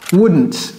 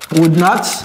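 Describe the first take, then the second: First: The words are merged into one short syllable group. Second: Both words are said fully and separately.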